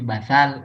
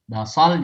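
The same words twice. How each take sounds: First: The middle consonant is a th sound. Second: The middle consonant is an emphatic s sound. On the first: The speaker calls it wrong. "yang di benaknya huruf sa" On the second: The speaker calls it right. "basal pakai sad"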